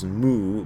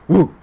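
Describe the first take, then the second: First: The word begins with an m sound. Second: The word begins with a w sound. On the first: "the character moo" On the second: "original pronunciation of the character moo in Chinese ... was wu"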